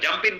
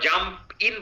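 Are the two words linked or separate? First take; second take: linked; separate. First: The two words run together as one. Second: The two words are said separately. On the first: The speaker calls it right. "লিংক হয়ে যাবে, এক word হয়ে যাবে" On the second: The speaker calls it wrong. "তারা জাম্প ইন বলবে না"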